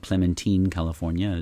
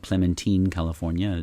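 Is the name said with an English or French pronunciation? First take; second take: French; French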